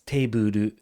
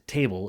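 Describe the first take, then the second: First: The word ends in a vowel sound. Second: The word ends in a consonant sound. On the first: "it's teburu because they can't make the sounds that like that" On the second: "So table isn't table"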